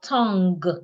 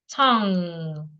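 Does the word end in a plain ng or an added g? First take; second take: added g; plain ng. First: It ends with an audible g sound. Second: It ends in a plain ng sound. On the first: The speaker calls it wrong. "It's not tongue. You don't say the g sound" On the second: The speaker calls it right. "the N and G in that word sounds ng"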